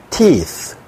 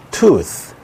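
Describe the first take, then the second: First: 'teeth' with a long i; plural demo. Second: 'tooth' with a long u; singular demo. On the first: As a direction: model 'teeth' with ee. ('teeth' 긴 이 소리로) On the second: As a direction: model 'tooth' with oo. ('tooth' 긴 우 소리로) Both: Shown as a demonstration. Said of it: "오오가 이이로 바뀌어서".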